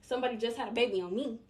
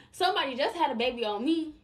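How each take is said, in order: First: Said in the usual way. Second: Louder, pressing the point home; emphatic repeat. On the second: Real, not acted. Telling her viewers about her own heartbreak, louder and emphatic. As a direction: say it again with more force. Repeats aside with more force.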